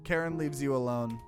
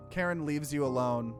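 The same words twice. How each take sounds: The two takes are said the same way.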